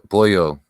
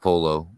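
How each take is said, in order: First: The middle consonant is not a plain L. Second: The middle consonant is a plain L. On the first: The speaker calls it right. "the L's. Po, pollo, not polo" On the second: The speaker calls it wrong. "not polo"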